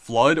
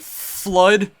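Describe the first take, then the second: First: The word starts with one short F sound. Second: The F sound is held long before the word. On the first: "pronounced as just Flood" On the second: "like an extended F sound"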